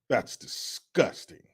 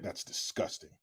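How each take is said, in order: First: Slow, whispered mock horror; slow whispered fake revulsion; slow whispered disgust. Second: Whispered mock disgust; hushed disgust. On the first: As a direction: drag it out in a hushed sneer. Slower whispered repeat. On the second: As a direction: breathe it out in fake horror.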